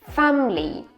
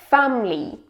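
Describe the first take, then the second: Both takes have the same delivery.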